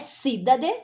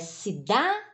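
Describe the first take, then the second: First: The stress falls on a non-middle syllable. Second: The stress falls on the middle syllable. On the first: The speaker calls it wrong. "Não é cidade" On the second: The speaker calls it right. "Então é cidade. ... É a penúltima"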